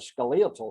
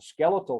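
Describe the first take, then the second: First: The word is said the British way. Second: The word is said the American way. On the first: "but in England" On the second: "here in the United States"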